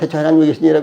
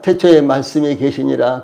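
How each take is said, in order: First: It is read very fast and rushed. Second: It is read slowly and evenly. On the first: "빨리 돌리면" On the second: "천천히 읽으면은"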